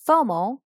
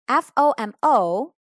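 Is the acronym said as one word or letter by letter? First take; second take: one word; letter by letter. First: It is said as a single word. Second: Each letter is said separately.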